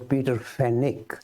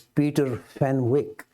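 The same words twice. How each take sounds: First: The w in the surname is left silent. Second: The w in the surname is clearly pronounced. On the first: This is how people in England say the name. "in England they pronounce it as" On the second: This follows how the name is spelled. "I tend to pronounce this as"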